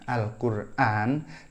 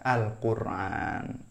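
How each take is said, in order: First: A glottal stop comes before the final syllable. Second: A throaty ain comes before the final syllable. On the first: "Hamzah tapi dibaca ain" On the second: "dibacanya Al-Quran"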